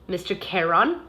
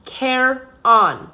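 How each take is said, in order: First: Mister Charon, said as KAIR-on, plain and a bit hesitant; the boy repeating Mister Charon as told; Mister Charon repeated. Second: Charon, stressed on the first syllable, KAIR-on; lightly accented teacher saying Charon for the boy to copy; Charon said slowly. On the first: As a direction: repeat Mister Charon dutifully after the guard. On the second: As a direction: spell out Charon as KAIR-on, slow and clear. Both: Shown as a demonstration. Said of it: "Say it with me".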